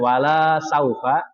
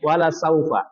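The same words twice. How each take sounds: First: The vowel in la is long. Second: The vowel in la is short. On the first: It means will not. The speaker calls it wrong. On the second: It means and surely will. The speaker calls it right.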